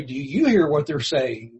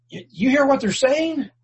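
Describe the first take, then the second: First: Knowing retort. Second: High, huffy outraged demand; mock outraged religious leader; indignant priests. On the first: Shown as a demonstration. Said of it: "I would almost have been tempted to say". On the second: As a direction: sneer it like an offended priest.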